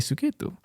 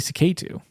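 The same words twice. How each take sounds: First: The name is said with an Indian pronunciation. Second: The name is said with an American pronunciation. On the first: "whenever a native Indian person refers to me, like they say they say Suketu" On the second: "whenever like an American person comes up to me, they always say Suketu"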